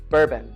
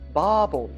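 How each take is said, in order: First: It has an American 'er' sound in the middle. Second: It has a Japanese 'ba' sound instead of 'er'. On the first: "that er sound that we have in American English" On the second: "For them, it's babon"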